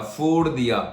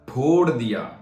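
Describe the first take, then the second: First: The first sound is made with lip and teeth. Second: The first sound is made with both lips. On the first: The speaker calls it wrong. "गलत, wrong" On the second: The speaker calls it right. "सो सही क्या है?"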